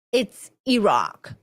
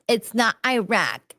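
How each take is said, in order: First: "Iraq" slowed and corrected to "ee-RAHK". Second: "Iraq" said American-style as "eye-RACK"; wrong Iraq. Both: Retold or imitated. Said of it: "And they're like".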